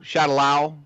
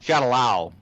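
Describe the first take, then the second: First: The last syllable sounds like 'lao'. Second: The last syllable sounds like 'lao'.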